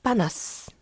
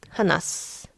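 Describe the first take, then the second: First: The word begins with a hard p sound. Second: The word begins with a soft h sound. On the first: The speaker calls it right. "윽 하나스 보다 윽 바나스" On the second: The speaker calls it wrong. "하나스 그냥 발음하면 발음이 힘들어요"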